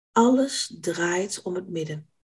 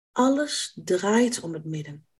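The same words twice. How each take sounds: No difference in how they are said.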